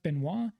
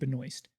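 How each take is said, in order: First: The name is said with a French pronunciation. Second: The name is said with an Americanized pronunciation. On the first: This is the usual way to say the name. "It is a French last name that is typically pronounced" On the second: This is how the family says the name. "her family pronounces it Benoist, more of an Americanized version"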